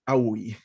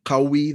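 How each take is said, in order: First: The word begins with a glottal stop. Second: The word begins with a deep q sound. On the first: This is the Egyptian dialect form. "they say awi" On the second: This is the original Arabic form. "they don't pronounce the qaf, they pronounce it as a hamza. So instead of saying like qawi"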